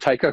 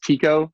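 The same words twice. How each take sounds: First: The name is said the American way. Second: The name is said the original, non-American way. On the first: "I just pronounced it Tycho because I'm American" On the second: "It's actually pronounced Tycho, is how the guy pronounced it"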